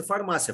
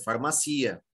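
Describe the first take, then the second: First: "farmácia" stressed on MA, far-MA-sya; stress on the middle syllable. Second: "farmacia" stressed on CI, far-ma-SEE-a. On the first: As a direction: say "farmácia" the Portuguese way, MA strong, final -cia short. ("farmácia" com tônica no MA) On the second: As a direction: move the beat to the I of "farmacia", split from the final A. ("farmacia" com tônica no I, far-ma-CI-a) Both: Shown as a demonstration. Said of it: "então não pode ser farmácia".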